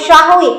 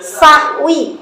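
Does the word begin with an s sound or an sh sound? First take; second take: sh; s. First: The word begins with an sh sound. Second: The word begins with a plain s sound. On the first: The speaker calls it wrong. "bukan syahwi ... bukan pakai sya" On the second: The speaker calls it right. "Pakai sa"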